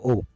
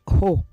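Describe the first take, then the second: First: The word begins directly with the vowel. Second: The word begins with an added h sound. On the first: "instead of o" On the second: "she says ho instead of o"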